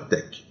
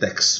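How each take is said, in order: First: The word ends with a k sound. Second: The word ends with a ks sound. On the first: The speaker calls it right. "a gente fala tec" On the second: The speaker calls it wrong. "Em inglês seria tex, mas não é assim"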